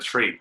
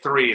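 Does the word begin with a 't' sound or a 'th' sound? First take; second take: t sound; th sound. First: The word begins with a hard 't' sound. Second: The word begins with a soft 'th' sound. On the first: The speaker calls it wrong. "instead of three" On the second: The speaker calls it right. "taught me to say three"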